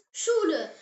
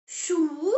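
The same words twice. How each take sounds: First: Said in the usual way. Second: "Schule" drawn out in separate syllables; slow model pronunciation. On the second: Shown as a demonstration. Teacher has learners repeat the German word, slow model pronunciation. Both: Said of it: "Say it".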